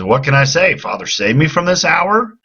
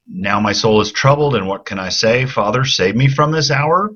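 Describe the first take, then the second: First: High, rising plea on hour; pitched high, rising to the end; emphatic question. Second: Rising question on hour; rising tune at the end, asking. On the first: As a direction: raise it up as a real question. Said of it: "he's contrasting". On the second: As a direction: read it as a pleading question. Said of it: "he's asking it as a question". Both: Shown as a demonstration.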